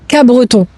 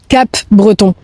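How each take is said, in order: First: The P sound is left out entirely. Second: The P sound is clearly pronounced. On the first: The speaker sounds like a local. The speaker calls it right. "il faut prononcer Cabreton. Donc en fait le P tu l'oublies" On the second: The speaker is not from the area. The speaker calls it wrong. "toi tu prononces Cap-Breton. Et là on sait direct que t'es pas d'ici"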